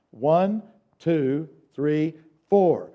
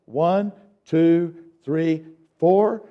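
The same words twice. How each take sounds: The two takes are said the same way.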